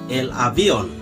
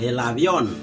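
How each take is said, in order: First: The stress is not on the last syllable. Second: The stress is on the last syllable. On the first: The speaker calls it wrong. "Mereka tidak akan menyebut seperti" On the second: The speaker calls it right. "kalau yang namanya ada acento, itu pasti penekanannya ada di situ"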